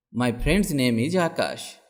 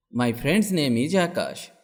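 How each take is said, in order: Both takes have the same delivery.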